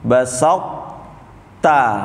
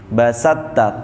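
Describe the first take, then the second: First: The first t is formed but not released. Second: The first t merges fully into the second. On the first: "To-nya dibentuk tapi jangan dipantulkan" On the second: "to-nya nggak usah dibentuk, langsung masuk ke huruf ta"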